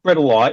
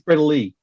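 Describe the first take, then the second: First: The final vowel sounds like 'eye'. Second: The final vowel sounds like 'ee'. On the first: The speaker calls it wrong. "It's not Bredeli" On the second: The speaker calls it right. "an I on the end of the name is pronounced a fucking E"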